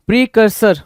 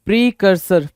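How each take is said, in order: Both takes have the same delivery.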